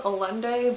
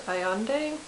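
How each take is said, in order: First: Allende read as spelled, with an L sound; spelling pronunciation. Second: Allende with the double L as a Y sound; Spanish-style pronunciation. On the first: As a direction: say Allende the way it is written, L pronounced. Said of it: "It's spelled Allende". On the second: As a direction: say Allende as "ah-YEN-day". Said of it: "I think it's pronounced Allende". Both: Shown as a demonstration.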